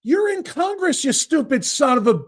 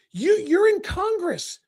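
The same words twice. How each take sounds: First: Exasperated retort. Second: You're in Congress said slowly, each word spelled out; slow down and lean on you're; slow emphatic repeat. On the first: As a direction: throw You're in Congress back at him, annoyed. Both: Real, not acted. Repeats line to guest.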